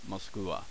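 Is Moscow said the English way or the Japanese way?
Japanese. It is said with Japanese syllables, ending in wa. "this is how the Japanese pronounce Moscow"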